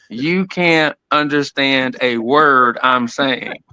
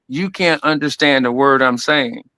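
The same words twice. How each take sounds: First: It is said very slowly. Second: It is said at a quick, mumbled pace.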